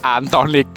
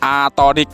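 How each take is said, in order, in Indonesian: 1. Diucapkan dengan n sebelum t. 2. Diucapkan tanpa n sebelum t. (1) "bukan Antonic" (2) "Atonic mas ya"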